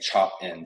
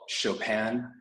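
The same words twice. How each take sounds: First: It is said as the words 'chop' and 'in'. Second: It is said the French way, like the composer. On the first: "some people like saying chop-in" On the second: "which is like the French inspired"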